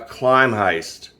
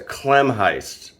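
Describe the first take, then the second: First: The first syllable sounds like 'climb'. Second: The first syllable sounds like 'clem'. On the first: The speaker calls it wrong. "Don't call it a climb heist" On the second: The speaker calls it right. "It's a Clem heist"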